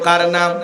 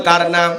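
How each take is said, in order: First: Said in the usual way. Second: "কার নাম" asked more forcefully; louder ask. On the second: Shown as a demonstration. Preacher prompting the crowd to answer louder. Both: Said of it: "জোরে বলেন".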